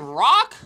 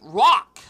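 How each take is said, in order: First: The word begins with a clear R sound. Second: The word begins with a W-like sound. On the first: "instead of saying rock" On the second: "Rock with like a W sound"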